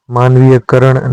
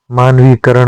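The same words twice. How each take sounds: First: मानवीयकरण with an extra य sound; wrong form. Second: मानवीकरण with no य; correct form. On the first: Teacher voicing the wrong form, मानवीयकरण. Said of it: "नहीं होता है". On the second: Teacher giving the correct form, मानवीकरण. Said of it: "होता है". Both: Shown as a demonstration.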